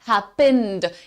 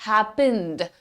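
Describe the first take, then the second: The two takes are said the same way.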